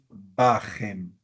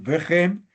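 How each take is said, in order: First: The first vowel is an a sound. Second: The first vowel is an e sound. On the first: The speaker calls it right. "decimos bajem" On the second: The speaker calls it wrong. "en vez de decir vejem"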